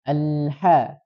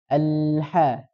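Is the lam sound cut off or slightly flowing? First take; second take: slightly flowing; slightly flowing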